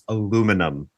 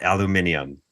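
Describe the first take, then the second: First: The word is said with four syllables. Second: The word is said with five syllables. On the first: The speaker calls it right. "It's aluminum" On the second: The speaker calls it wrong. "not aluminium. ... we're throwing in extra letters"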